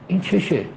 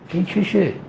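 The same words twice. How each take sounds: First: The voice falls at the end, like a statement. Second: The voice rises at the end, like a question. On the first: It states that something is wrong with him. "یعنی اینجا بشه نقطه" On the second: The listener is left wondering what is wrong. "درگیر یک استفهام بشه"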